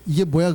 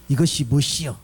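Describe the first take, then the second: First: It is said in standard Seoul Korean. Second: It is said in southern Jeolla dialect.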